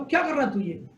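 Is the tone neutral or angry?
angry. It is said in an angry tone.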